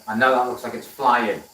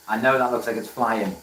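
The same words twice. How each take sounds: The two takes are said the same way.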